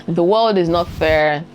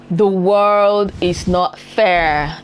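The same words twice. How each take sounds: First: Said in the usual way. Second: Very slow, every word stretched and firm; very slow emphasis. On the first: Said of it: "repeated line, second take". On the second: Real, not acted. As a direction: spell it out word by word. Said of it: "repeated line, first take".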